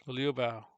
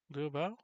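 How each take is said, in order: First: "Liu Bao" said firmly with a falling end; "Liu Bao" stated as a sure answer, falling at the end; statement tune. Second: "Liu Bao?" rising at the end, unsure; "Liu Bao?" asked as a doubtful question, pitch going up; question tune. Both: Shown as a demonstration. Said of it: "You say".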